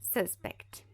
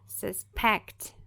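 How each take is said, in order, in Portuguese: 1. A tônica está na primeira sílaba. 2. A tônica está na segunda sílaba. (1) "Olha como já muda" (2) "segunda sílaba mais forte"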